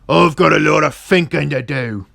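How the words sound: The words are cut short with an f sound.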